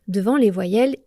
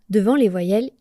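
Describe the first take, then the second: The two takes are said the same way.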